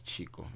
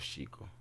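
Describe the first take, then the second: First: The name begins with a 'ch' sound. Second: The name begins with an 'sh' sound. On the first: This is how the grandfather always said the name. "how he pronounced my name all the time was Chico" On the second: This is the speaker's real name. "instead of Chico"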